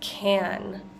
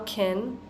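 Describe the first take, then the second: First: The vowel is full and open. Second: The vowel is squeezed and reduced. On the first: It names a container. "we're going to pronounce that vowel an fully" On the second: It is a helping verb of ability. "squeezing that vowel out a little bit"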